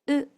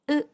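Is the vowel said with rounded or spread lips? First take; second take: spread; spread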